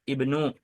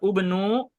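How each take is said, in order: First: The word begins with an i vowel. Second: The word begins with a u vowel. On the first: The speaker calls it right. "melainkan ibnu" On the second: The speaker calls it wrong. "Bukan juga ubnu"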